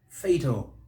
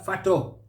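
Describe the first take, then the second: First: The stress is on the first syllable. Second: The stress is on the second syllable. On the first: The speaker calls it right. "We stress that first syllable" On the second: The speaker calls it wrong. "place stress on the second syllable. Wrong"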